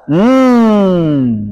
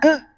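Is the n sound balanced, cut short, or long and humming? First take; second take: humming; cut short. First: The n sound is released into a long hum. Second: The n sound is pressed and cut short. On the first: "Kalau terlalu dilepas" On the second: "Nun kalau ditekan bunyinya n"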